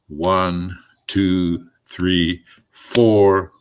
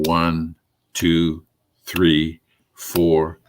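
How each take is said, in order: First: The emphasis falls on the word four. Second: The count is said with no special emphasis.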